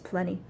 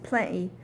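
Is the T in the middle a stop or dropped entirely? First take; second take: dropped; stop. First: The T is dropped and the word runs together. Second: Cockney style, the T replaced by a stop.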